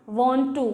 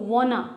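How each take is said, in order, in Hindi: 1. दोनों शब्द पूरे और अलग-अलग बोले जाते हैं। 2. छोटा होकर एक शब्द बन जाता है, wanna।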